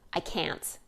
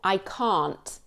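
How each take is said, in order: First: It has a short American vowel in can't. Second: It has a long British vowel in can't. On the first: "as opposed to American" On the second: "a good way to sound more British ... is to elongate those middle vowels"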